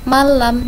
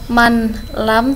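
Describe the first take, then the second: First: The n sound merges into a doubled l. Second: The n sound is clearly pronounced before l. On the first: The speaker calls it right. "tapi malam" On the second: The speaker calls it wrong. "bukan man lam"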